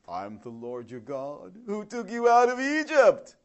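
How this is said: It is said like a used car salesman.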